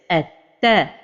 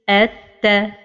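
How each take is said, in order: First: The doubled t is pushed out forcefully. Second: The doubled t is said evenly without force. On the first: The speaker calls it wrong. "push with the letter like this" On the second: The speaker calls it right. "the right pronunciation is at ta"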